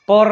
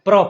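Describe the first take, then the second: First: A vowel is inserted between p and r. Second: The p and r are joined without vowel. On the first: The speaker calls it wrong. "પર નહીં" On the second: The speaker calls it right.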